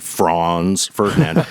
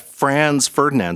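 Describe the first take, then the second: First: The name has a European-style pronunciation. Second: The name has an American-style pronunciation. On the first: "we've got to do the European pronunciation" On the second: "I've totally Americanized it"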